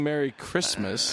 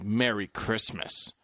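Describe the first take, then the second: First: It sounds plain and friendly. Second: It sounds pointed and self-righteous. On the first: The greeting is simply a kind wish. The speaker calls it right. "as opposed to just saying Merry Christmas" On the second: The greeting is used to make a point. The speaker calls it wrong. "it's less nice when you say it like that"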